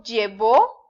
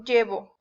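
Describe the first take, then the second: First: Llevó stressed on the final syllable, lle-VÓ; lle-VÓ, past-tense stress; stress on last syllable. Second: Llevo stressed on the first syllable, LLE-vo; LLE-vo, present-tense stress. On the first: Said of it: "si yo digo llevó". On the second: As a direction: say llevo with a light, unstressed final o. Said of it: "si no le pongo acento". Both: Shown as a demonstration.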